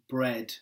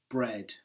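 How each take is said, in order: Both takes have the same delivery.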